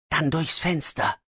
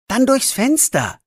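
First: Softer, murmured to himself; quietly to himself. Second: Said in the usual way. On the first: Acted. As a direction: say it just for yourself. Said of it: "sagt er leise zu sich". (leise zu sich selbst)

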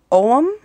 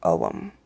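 First: "Oum?" tried as a rising, unsure question; unsure pronunciation. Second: "Oum." said low and final, falling; settled pronunciation. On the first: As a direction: test "Oum?" with a questioning lift at the end. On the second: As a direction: land on "Oum." firmly, much lower. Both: Shown as a demonstration. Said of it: "I'm probably gonna butcher how I'm saying this".

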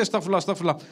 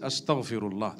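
First: Empty routine "Astaghfirullah", softer and blurred; rattled-off repetition. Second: A single low, much softer "Astaghfirullah", each syllable meant; hushed, deliberate "Astaghfirullah" from the heart; with concentration. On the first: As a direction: mumble "Astaghfirullah, astaghfirullah" softly and by rote. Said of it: "Don't just say". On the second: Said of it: "say it". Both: Shown as a demonstration.

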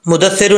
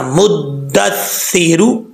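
First: मुदस्सिरू quick with single d; wrong reading. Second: मुद्दस्सिरू slow, both doublings held; correct recitation. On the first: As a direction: hurry मुदस्सिरू, no doubling held. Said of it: "नहीं पढ़ना". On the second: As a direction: lengthen d, th and long ee in मुद्दस्सिरू. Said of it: "दोनों हर्फ जो हैं शद वाले हैं". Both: Shown as a demonstration.

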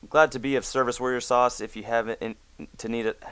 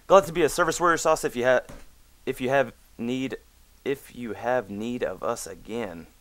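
First: Said in the usual way. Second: Pompous reread. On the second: Shown as a demonstration. Rereading the GM's sign-off to Warrior Sauce, mock grand. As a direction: read it like a pompous herald.

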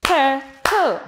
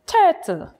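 First: TURTLE in two separate beats, tur, tle; split into syllables. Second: Said in the usual way. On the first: Shown as a demonstration. Teacher claps for children, TURTLE syllable by syllable. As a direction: break TURTLE apart, one clap per syllable. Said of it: "Let's clap and say the word". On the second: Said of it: "say the word turtle".

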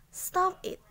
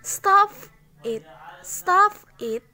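First: Breathy whispered stop it; whispered command. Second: Loud, higher sharp stop it; firm shouted stop it; shouted command. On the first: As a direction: hiss stop it under your breath. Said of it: "teacher repeats it as whisper". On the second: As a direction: snap stop it out like an order. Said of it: "teacher demonstrating a command". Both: Shown as a demonstration.

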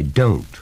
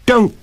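First: Said in the usual way. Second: Sudden high, loud outburst; sharp, high protest; alarmed cry. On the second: A narrator's reading. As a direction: cry out to stop him. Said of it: "cried Betty".

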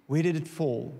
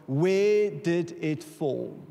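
First: Said in the usual way. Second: Slow, drawn-out question. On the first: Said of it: "And God said to me". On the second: Retold or imitated. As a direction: stretch each word of Where did it fall?, very slow. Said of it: "Elisha says to the prophet".

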